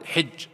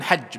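First: The vowel after the first consonant is 'i'. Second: The vowel after the first consonant is 'a'. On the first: This is the form the speaker's own community uses. "ونحن نقول حج بالكسر" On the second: This is the form used in the dialect of Najd. "هم يقولون حج بالفتح"

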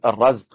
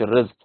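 First: The word is said with the vowel a. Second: The word is said with the vowel i. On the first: The act of providing sustenance. The speaker calls it right. "والصواب أنك تقول" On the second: The sustenance that is provided. The speaker calls it wrong. "مش"

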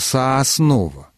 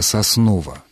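First: The first unstressed vowel sounds like a full 'o'. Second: The first unstressed vowel sounds close to 'a'. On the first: The speaker calls it wrong. "вот это уже нарушение" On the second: The speaker calls it right. "он именно акает, потому что в первом слоге название «Соснова» звучит звук ближе напоминающий именно «а»"

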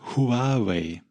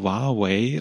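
First: The starting H sound is clearly pronounced. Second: The starting H sound is left out. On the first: The speaker calls it right. "Also das H muss gesprochen werden" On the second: The speaker calls it wrong. "ihr sagt alle Huawei und das ist falsch"

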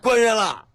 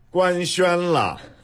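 First: Beijing dialect with the syllables run together. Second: Standard Mandarin with each syllable clearly separated. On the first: "但是如果您用北京话" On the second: "我用标准的普通话告诉您"

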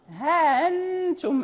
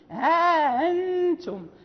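First: The vowel after 'ha' is short, glottal stop softened. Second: The vowel after 'ha' is drawn out long. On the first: This is the reading of another reciter, without an alif. "ليست عنده ألف بين الهاء والهمزة المسهلة" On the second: This is the reading of one reciter, with an alif. "فقالون له الألف يعني يمد ها أنتم"

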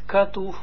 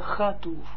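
First: The word begins with a hard k sound. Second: The word begins with a soft ch sound. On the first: The speaker calls it wrong. "zeg niet katuv" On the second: The speaker calls it right. "maar chatuv"

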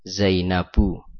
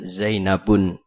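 First: The word ends in a vowel without n. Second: The word ends with an added n sound. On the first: The speaker calls it right. "Contohnya misalkan Zainab" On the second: The speaker calls it wrong. "Tidak dibaca Zainabun"

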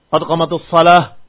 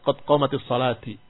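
First: The last word ends without a final vowel. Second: The last word ends with an i vowel. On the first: The speaker calls it right. "Atau sakin taslam. Atau matikan selamat" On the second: The speaker calls it wrong. "Fahada khata. As-salah bukan dikasrahkan"

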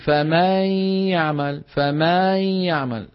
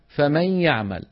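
First: The vowel after the m is stretched long. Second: The vowel after the m is kept short. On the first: The speaker calls it wrong. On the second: The speaker calls it right.

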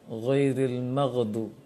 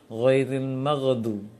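Both takes have the same delivery.

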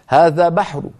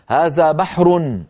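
First: The final vowel is faint and low. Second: The final vowel is fully voiced. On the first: "حركة بصوت منخفض" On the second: "حركة كاملة"

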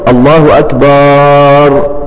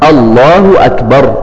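First: The last vowel of akbar is drawn out. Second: The last vowel of akbar is short. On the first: The word comes to mean a drum. The speaker calls it wrong. "اكبر معناها الطبل ... ده لحن خطا" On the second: The word means greatest. The speaker calls it right. "فالصواب في نطق الله اكبر"

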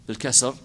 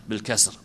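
No difference in how they are said.

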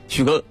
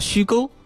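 First: It is said in the local dialect pronunciation. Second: It is said in standard Mandarin pronunciation.

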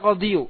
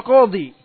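First: The word ends with an added yu sound. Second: The word ends in a long plain i. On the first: The speaker calls it wrong. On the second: The speaker calls it right.

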